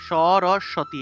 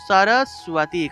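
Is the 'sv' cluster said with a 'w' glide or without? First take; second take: without; with. First: The cluster is said without a clear 'w' glide. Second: The cluster is said with a clear 'w' glide. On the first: The speaker calls it wrong. "সরস্বতী এইভাবে উচ্চারণ করে ফেলি, কিন্তু এটা সরস্বতী হবে না" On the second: The speaker calls it right. "উচ্চারণটা হবে সরস্বতী ... সুয়া উচ্চারণ হয়"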